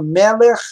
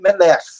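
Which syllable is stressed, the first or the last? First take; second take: first; last. First: The stress is on the first syllable. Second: The stress is on the last syllable. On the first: The speaker calls it right. "elas têm a sílaba tônica antes" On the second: The speaker calls it wrong. "se não soubesse dessa regra... puxa tudo para a última sílaba"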